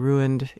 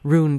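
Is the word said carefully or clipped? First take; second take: careful; clipped. First: The word is said slowly and fully articulated. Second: The word is said quickly and clipped. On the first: It is careful speech. "might say ruined in a more careful mode" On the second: It is casual, offhand speech. "the people who would say ruined in fast speech"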